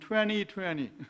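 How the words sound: It is said in an American accent. "미국식으로 발음하면"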